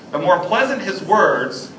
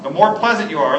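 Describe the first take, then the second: First: Slow verse reading, "pleasant" weighted; stress on pleasant. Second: "pleasant" leaned on, louder; stress on pleasant. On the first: Reading the Proverbs verse, stress on pleasant. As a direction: read slowly, leaning on pleasant. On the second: Teaching that pleasant words persuade, stress on pleasant. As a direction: punch the word pleasant. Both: Shown as a demonstration. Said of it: "circle pleasant".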